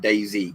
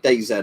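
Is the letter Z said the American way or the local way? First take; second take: American; local. First: The final letter is said the American way. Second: The final letter is said the local way. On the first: "most people call it DayZ because Americans say Z as Z" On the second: "I'll say DayZ"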